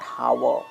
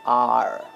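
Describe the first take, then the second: First: The word begins with an h sound. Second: The word begins with a vowel sound. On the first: The speaker calls it wrong. "This is not हावर" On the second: The speaker calls it right. "This is आर"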